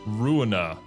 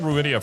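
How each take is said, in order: First: The name ends directly in '-ina' with no 'ee'. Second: The name has an extra 'ee' sound before 'a'. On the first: The speaker calls it right. "There is no I after the end" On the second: The speaker calls it wrong. "I keep calling it Ruinia for some reason"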